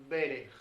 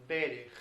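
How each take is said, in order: The two takes are said the same way.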